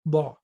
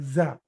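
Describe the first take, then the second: First: The consonant is pronounced like a d. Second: The consonant is pronounced like a z. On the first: The speaker calls it right. "the pronunciation should be da" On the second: The speaker calls it wrong. "The pronunciation of letter dad should not be like za"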